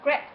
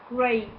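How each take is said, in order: First: The vowel is a short 'e' sound. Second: The vowel is a long 'ay' sound. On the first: The speaker calls it wrong. "not great" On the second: The speaker calls it right. "but the A sound"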